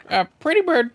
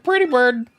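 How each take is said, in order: First: High loud parrot call. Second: High loud parrot repeat. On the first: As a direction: squawk it out like a parrot. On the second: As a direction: say it again, birdlike. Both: Acted.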